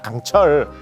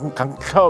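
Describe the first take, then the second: First: The word ends with a clear final L sound. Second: The word ends without the final L sound.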